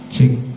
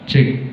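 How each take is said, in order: First: The voice has a slight echo added. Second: The voice is crisp with more treble and echo. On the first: "Itu ada gema-gemanya dari efeknya" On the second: "itu dominan suara kalau kami ngomongnya itu renyah"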